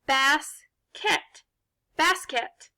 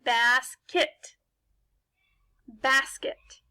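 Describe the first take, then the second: First: "Basket" as BASS-KET, full short e in the second syllable; unreduced second vowel. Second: "Basket" as BASS-kit, weak ih in the second syllable; reduced second vowel. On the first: Teacher shows it sounds unreal, "Basket" with full KET. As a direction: say "Basket" like two separate words, bass and ket. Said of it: "it doesn't sound like a real word". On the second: Teacher blends the syllables, "Basket" with reduced kit. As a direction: blend "Basket" into the real word, ending in quick kit. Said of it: "put these two syllables together". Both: Shown as a demonstration.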